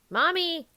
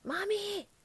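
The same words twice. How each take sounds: First: It is said a little louder. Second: It is said quietly.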